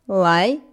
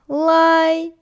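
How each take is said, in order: First: The pitch rises from mid to high. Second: The pitch stays high and level.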